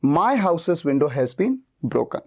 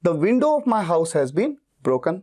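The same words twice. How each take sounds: First: My punched, very slow; stress on MY. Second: Window punched, very slow; stress on WINDOW. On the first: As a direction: hit my, slow teacher demo. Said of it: "मेरा focus मेरे घर पे है". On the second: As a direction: hit window, slow teacher demo. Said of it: "मेरा focus खिड़की पे ज्यादा है". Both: Shown as a demonstration.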